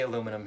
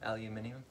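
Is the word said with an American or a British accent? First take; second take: American; British. First: It is said the American way, aluminum. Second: It is said the British way, aluminium.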